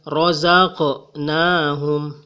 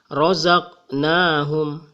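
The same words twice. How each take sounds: First: The q sound has a strong echoing bounce. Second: The q sound has no echoing bounce. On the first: "Tidak boleh juga... Jadi bergetarnya itu kecil ya" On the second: "tidak boleh kita membaca razaqnahum, tetapi bergetar suara di sini"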